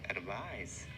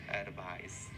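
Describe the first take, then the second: Both takes have the same delivery.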